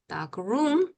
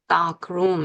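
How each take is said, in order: First: The stress falls on the second word. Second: The stress falls on the first word. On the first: It means a room that is dark. "어두운 방 그럴 때는 dark room 이렇게 얘기한다는" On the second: It means a darkroom for developing photos. "첫 어휘의 강세가 그러니까 dark room 이렇게 얘기하고"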